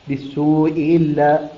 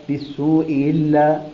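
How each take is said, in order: The two takes are said the same way.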